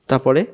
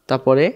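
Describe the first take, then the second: No difference in how they are said.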